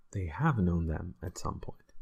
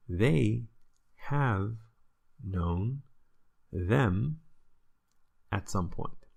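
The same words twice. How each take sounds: First: Said in the usual way. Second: Slow, each word set apart with pauses. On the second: Shown as a demonstration. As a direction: spell out "They have known them" one word at a time. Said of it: "Zij hebben hen ooit wel gekend".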